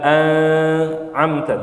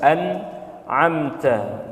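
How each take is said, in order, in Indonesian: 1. Bunyi n terdengar kabur, bukan jelas. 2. Bunyi n diucapkan dengan jelas dan tegas. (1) "Tidak an'amta" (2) "tapi jelas an'amta"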